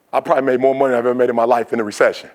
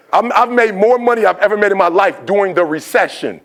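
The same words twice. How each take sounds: First: Fast, understated aside; offhand remark. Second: "I've made more money" raised high and punched out; insistent, high-pitched "made more money" for the crowd; emphatic repeat. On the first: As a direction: rattle it off in passing. First take, said in passing. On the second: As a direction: proclaim "during the recession" high, each word distinct. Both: Real, not acted.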